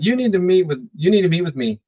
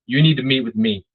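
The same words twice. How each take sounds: First: "you need to meet with me" pitched higher throughout; upswing, less confident. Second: "you need to meet with me" kept even, falling at the end; confident downswing. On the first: Coach shows the wrong way to ask, higher unsure tone on "you need to meet with me". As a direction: lift "You need" high, losing the authority. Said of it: "Upswing, downswing". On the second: Coach shows a confident request to meet, even tone with falling "me". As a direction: state it firmly and stop short on "me". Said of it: "If you want confidence". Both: Shown as a demonstration.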